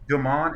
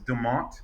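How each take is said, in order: First: The name ends without a T sound. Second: The name ends with a clear T sound. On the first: This is the intended French-style pronunciation. "Demont is how it's really pronounced, like Demont" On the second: This is how the name ended up being said. "and then they put a T on it, so it's like now it's Demont"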